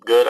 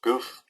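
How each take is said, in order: First: Good said with a final d; corrected word. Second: Goof? said with a final f; misread typo. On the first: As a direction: say good, ending on d. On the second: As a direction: reads Goof? aloud, ending on f. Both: Shown as a demonstration. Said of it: "I guess you mean good".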